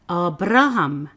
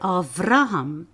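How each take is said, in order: First: The second consonant is a B sound. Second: The second consonant is a V sound. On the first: "most people that reads translations will say Abraham"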